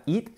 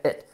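First: "it" with a tense ee, like "eet"; wrong long I. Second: "it" with a lax vowel, close to "et"; correct short vowel. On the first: Teacher shows the mistake in "it", tense ee vowel. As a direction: sharpen the vowel of "it" into Spanish I. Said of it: "que no sería it". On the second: Teacher models the pronoun "it", short lax vowel. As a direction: relax "it" into a short open I. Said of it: "sería it". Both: Shown as a demonstration.

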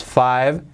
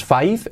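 First: "five" ending in a voiced V; correct final V. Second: "five" ending in F, FIFE, rising; the mistaken "five" as "fife"; wrong final F. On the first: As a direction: say "five" with a buzzing V at the end. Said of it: "es five years". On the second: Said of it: "No es five". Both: Shown as a demonstration.

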